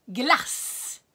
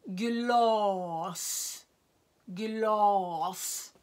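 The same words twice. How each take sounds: First: "Glass" with a short, clipped a and a stressed s; short vowel. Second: "glas" with a long, drawn a; lång vokal i "glas"; long vowel. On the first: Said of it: "är en kort vokal". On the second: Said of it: "En lång vokal". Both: Shown as a demonstration.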